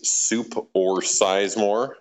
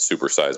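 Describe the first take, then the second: First: It is said slowly, as separate words. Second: It is said fast, run together.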